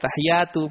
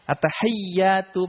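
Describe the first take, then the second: First: The y sound is single and short. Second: The y sound is doubled and held long. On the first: The speaker calls it wrong. "dibaca at-tahiyyatu biasa, maka tidak sah" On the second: The speaker calls it right. "pakai ya-nya itu ada tasydidnya"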